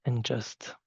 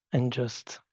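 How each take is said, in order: Both takes have the same delivery.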